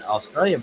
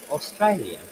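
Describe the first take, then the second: First: Australian in a broad Aussie accent. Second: Australian in a put-on British accent. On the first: Woodworker demonstrates his Australian attempt, broad Australian accent. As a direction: say Australian with a wide Aussie middle vowel. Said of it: "an Australian person would say". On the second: Woodworker demonstrates British for a listener, British accent. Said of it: "a British person would say". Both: Shown as a demonstration.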